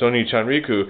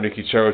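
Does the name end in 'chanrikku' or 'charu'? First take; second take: chanrikku; charu. First: The name ends with the sounds 'chanrikku'. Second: The name ends with the sounds 'charu'. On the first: The speaker calls it right. "It's oniichanrikku" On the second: The speaker calls it wrong. "It's not onikicharu"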